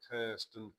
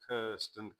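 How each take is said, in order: Both takes have the same delivery.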